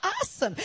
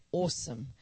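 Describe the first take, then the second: First: "Awesome." high and bright, a gushing American AH-some; loud, high American "Awesome." with a big fall. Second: "Awesome." said low and even, a proper Australian ossum; Queen's English "Awesome." with a refined, level fall; dignified Queen's English. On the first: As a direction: pitch "Awesome." way up like an excited American. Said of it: "say it like an American". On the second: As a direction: keep "Awesome." measured and dignified. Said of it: "This is the Queen's English". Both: Shown as a demonstration.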